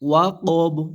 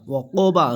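First: The word ends on a stopped consonant. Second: The word ends with a short vowel. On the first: "ওয়াকব এরকম উচ্চারণ হবে" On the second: "ওয়াকোবা জবর বা"

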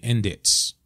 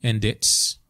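Both takes have the same delivery.

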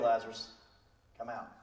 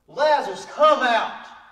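First: The phrase is said quietly and casually. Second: The phrase is shouted loudly. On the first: The speaker calls it wrong. "He's not going, okay" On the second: The speaker calls it right. "He's yelling, Lazarus. He's loud"

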